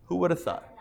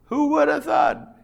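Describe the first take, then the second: First: Said in the usual way. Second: High, hammed-up who would have thought; mock amazement. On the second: Teacher marvels at the hidden sentence, hammed-up amazed. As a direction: play up the wonder of it.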